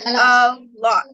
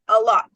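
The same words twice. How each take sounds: First: The two words are said separately and fully. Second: The two words run together as one unit. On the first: "Instead of saying a lot" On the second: "we're connecting them"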